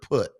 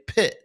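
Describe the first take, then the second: First: The word has the vowel of 'put'. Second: The word has the vowel of 'pit'. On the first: "instead of saying the word put" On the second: "folks would say pit"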